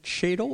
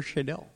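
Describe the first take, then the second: First: Shadle as SHAY-dul; first-syllable stress. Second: Shadell as shay-DELL; second-syllable stress. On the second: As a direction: land the stress on the end of Shadell. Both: Shown as a demonstration. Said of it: "I keep saying Shadell. Is it Shadle or Shadell?".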